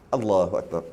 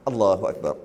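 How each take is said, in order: The two takes are said the same way.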